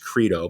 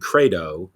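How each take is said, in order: First: It is said with an English pronunciation. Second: It is said with a Latin pronunciation. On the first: "we would say in English credo" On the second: "the Latin credo"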